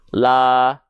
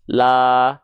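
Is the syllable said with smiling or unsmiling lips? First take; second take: unsmiling; unsmiling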